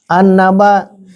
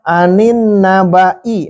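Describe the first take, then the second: First: The first n has no vowel after it. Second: An i vowel follows the first n. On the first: This is the original form before the change. "Asalnya an, nun, sukun" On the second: A vowel is added to free the two vowelless letters. "Agar terbebas, bisa terurai dari dua sukun yang itu, maka harus diharokati"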